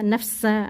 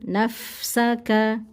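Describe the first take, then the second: First: The f sound is cut short and rushed. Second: The f hiss is held a little longer. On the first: The speaker calls it wrong. "jangan nafsa nafsa nah, itu jangan terlalu secepat itu" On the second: The speaker calls it right. "ini mungkin di agak sedikit dilamakan ya"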